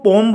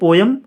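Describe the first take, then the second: First: The word is said with one syllable. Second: The word is said with two syllables. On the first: The speaker calls it right. "इसको पोम बोलते हैं" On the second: The speaker calls it wrong. "हम पोएम ही बोलना की आदत लग गई है"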